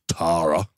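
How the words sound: The name is said with an Australian accent. "in Australia you'd say Tara"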